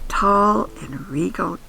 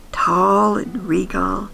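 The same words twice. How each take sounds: The two takes are said the same way.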